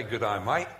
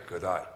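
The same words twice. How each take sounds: First: Lightly imitated Australian greeting; a touch of Aussie on "Good day, mate"; Australian accent. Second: Low, understated New Zealand greeting; New Zealand accent. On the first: Preacher contrasting Australians with New Zealanders, light Australian accent. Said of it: "Australia say". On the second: Retold or imitated. Preacher showing the mateless New Zealand greeting, understated accent. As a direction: imitate a New Zealander's brief "Good day". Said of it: "but the New Zealanders say".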